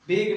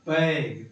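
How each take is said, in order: First: The vowel sounds like the one in 'beg'. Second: The vowel sounds like the one in 'bag'. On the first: The speaker calls it wrong. "बेग नहीं पढ़ेंगे" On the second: The speaker calls it right. "क्या पढ़ेंगे? बैग"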